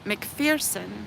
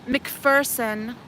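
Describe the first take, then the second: First: The name is said with a 'fear' sound. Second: The name is said without a 'fear' sound. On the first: This is how the family and everyone else say it. "her family pronounces it McPherson" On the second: This is how the name is said at its origin. "Yes, I know uh, it's McPherson"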